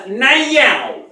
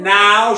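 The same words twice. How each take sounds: First: "now" said high and through the nose; a nasal drawn-out "now"; Paula Deen's now. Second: Said in the usual way. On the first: Retold or imitated. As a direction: stretch "now" in a nasal Southern twang. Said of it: "she says". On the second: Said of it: "instead of saying".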